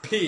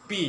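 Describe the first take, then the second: First: পি with a strongly aspirated p, "phee"; correct pronunciation. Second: পি with an unaspirated p; wrong pronunciation. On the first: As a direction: puff air on the p of পি. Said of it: "Its correct pronunciation is". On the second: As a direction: say পি with no puff of air. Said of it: "It's wrong pronunciation". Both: Shown as a demonstration.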